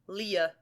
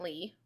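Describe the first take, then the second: First: A 'lee' followed by a short extra ending sound. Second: A plain 'lee' with no extra ending sound. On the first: The speaker calls it right. "it's got like a little after tick on it. It's Leah" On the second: The speaker calls it wrong. "A lot of people just pronounce it Vincent Lee"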